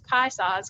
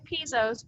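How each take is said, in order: First: The first syllable sounds like 'pie'. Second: The first syllable sounds like 'pee'. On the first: The speaker calls it right. "but it's pie saws because they even had a pronunciation on their flyer" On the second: The speaker calls it wrong. "I know it looks like Pizos"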